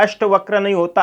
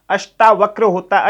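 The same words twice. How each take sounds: First: अष्टवक्र with short अ, no आ; wrong form. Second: अष्टावक्र with long आ after ष्ट; correct form. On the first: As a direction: mark अष्टवक्र as the mistake. (अष्टवक्र को गलत रूप की तरह बोलना) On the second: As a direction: stress the right अष्टावक्र. (सही रूप अष्टावक्र पर ज़ोर) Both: Shown as a demonstration. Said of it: "सही लिखा जाता है".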